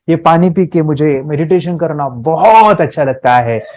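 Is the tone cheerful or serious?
cheerful. It is said cheerfully, with a smile.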